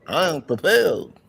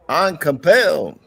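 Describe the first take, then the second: First: It is said softly and weakly. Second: It is said loudly and forcefully.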